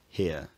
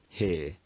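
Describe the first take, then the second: First: The vowel glides from one position to another. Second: The vowel is long and stays steady. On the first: This is the older upper-class accent. "rather than" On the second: This is the modern upper-class accent. "a long vowel where the tongue position doesn't move"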